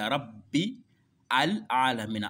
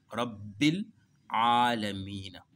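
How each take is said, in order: First: The words are said separately, with the article's vowel kept. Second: The words are linked, skipping the article's vowel. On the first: "Si tu veux lire séparément" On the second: "si tu veux faire la liaison, tu sautes sur A"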